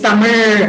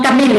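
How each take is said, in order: First: "Tamil" with a curled, r-like final sound; corrected final sound. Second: "Tamil" with an ordinary l; wrong final sound. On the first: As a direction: curl the tongue back to end "Tamil". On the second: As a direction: say "Tamil" without the curled r-like ending. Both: Shown as a demonstration. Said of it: "you have to get r".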